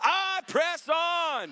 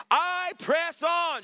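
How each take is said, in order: First: Higher, very slow call; slow shouted declaration. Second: Higher, very slow, loud; emphatic shout. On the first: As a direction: drag out I press on as a cry. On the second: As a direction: stretch out I press on. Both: Real, not acted. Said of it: "Shout it out loud".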